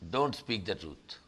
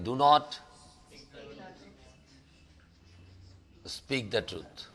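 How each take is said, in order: First: Do not is contracted into one syllable. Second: Do not is said as two full words.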